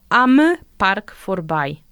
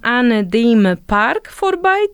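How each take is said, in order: First: The words 'an dem' are contracted to 'am'. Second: The words 'an dem' are said in full. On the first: The speaker calls it right. "tylko am Park vorbei" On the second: The speaker calls it wrong. "Niemcy zazwyczaj nie mówią an dem Park vorbei"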